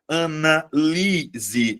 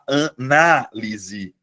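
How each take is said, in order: First: The stress falls on the third syllable. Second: The stress falls on the second syllable. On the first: It is a verb. "a sílaba tônica é a anterior, beleza? É, é a penúltima sílaba" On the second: It is a noun. "você muda a posição da sílaba tônica"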